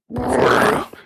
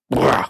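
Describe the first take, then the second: First: It is said very slowly. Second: It is said at normal speed.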